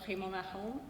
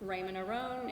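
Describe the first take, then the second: First: The name is said with a French pronunciation. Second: The name is said with an American English pronunciation. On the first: "if you speak French" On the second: "if you're American, or or a native English speaker"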